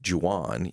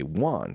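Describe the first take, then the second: First: The name begins with an English J sound. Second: The name begins with a soft H sound. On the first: The speaker calls it wrong. "So Juan is with a J. But you don't say Juan" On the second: The speaker calls it right. "you say Juan"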